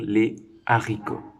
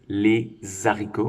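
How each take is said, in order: First: No z sound links les to the noun. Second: A z sound links les to the noun. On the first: The speaker calls it right. "on va dire" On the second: The speaker calls it wrong. "On ne va pas dire"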